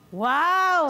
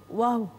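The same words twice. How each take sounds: First: It is said with an angry tone. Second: It is said with a scared tone.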